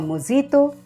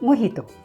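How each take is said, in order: First: The middle consonant is a J sound. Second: The middle consonant is an H sound. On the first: The speaker calls it wrong. "instead of mojito" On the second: The speaker calls it right. "the letter J is pronounced like the letter H"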